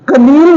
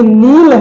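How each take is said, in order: First: A K sound is heard before the N. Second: The word starts straight with the N sound. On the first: The speaker calls it wrong. "कनील नहीं है" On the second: The speaker calls it right. "क्योंकि इसमें के silent हो गया"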